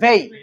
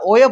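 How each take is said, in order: First: The word begins with a v sound. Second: The word begins with a w sound. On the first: This is the modern Persian pronunciation used in Iran. "আধুনিক ফার্সি ভাষায় এটা উচ্চারণ হচ্ছে ভেই" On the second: This is the reading used in the Indian subcontinent. "এটা আবার ওয়েও পড়া যায়, তবে ওয়েটা পরে ভারতীয় উপমহাদেশে"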